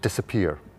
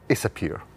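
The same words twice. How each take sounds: First: The word starts with a clear d sound. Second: The word is said without its d sound. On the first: "the letter D has started to disappear" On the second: "or disappear"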